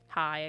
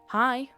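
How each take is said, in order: First: It is said in the speaker's ordinary voice. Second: It is said in a put-on little boy voice.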